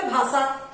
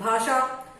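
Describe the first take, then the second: First: भाषा said as bhaasaa, plain 's'; mispronounced s for sh. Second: भाषा with a clear 'sh', bhaashaa; correct sh sound. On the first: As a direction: say भाषा wrongly as BHAA-saa. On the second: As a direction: say भाषा properly as BHAA-shaa. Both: Shown as a demonstration. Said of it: "सही शब्द क्या है बच्चों?".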